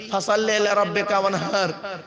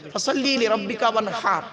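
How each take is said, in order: First: ফাসাল্লি লিরাব্বিকা ওয়ানহার with a plain Bengali h, as people usually say it; the common wrong way. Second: ফাসাল্লি লিরাব্বিকা ওয়ানহার with the ha of ওয়ানহার breathed from the throat. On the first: Preacher imitating how people usually recite the verse. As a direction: mimic the careless everyday recitation. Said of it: "আমরা কি বলি?". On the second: Preacher reciting the verse the correct way for the crowd. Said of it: "এই গলার ভিতর থেকে এটা উচ্চারণ হবে". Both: Shown as a demonstration.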